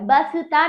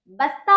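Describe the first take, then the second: First: बसता as ba-sa-taa; wrong full स. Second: बस्ता as bas-taa, no vowel after स; correct half स. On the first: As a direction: sound a vowel after स in बसता. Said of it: "बसता नहीं होता है". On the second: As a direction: join स straight onto ता in बस्ता. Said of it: "बस्ता होता है, बसता नहीं होता है". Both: Shown as a demonstration.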